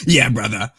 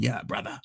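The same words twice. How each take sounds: First: Loud gruff wrestler growl; hammed-up wrestling promo shout; Hulk Hogan voice. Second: Breathy whispered wrestler rasp; hushed gravelly heel voice; Hollywood Hogan voice. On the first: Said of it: "Like Hulk Hogan". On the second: Pretend. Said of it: "like Hollywood Hogan".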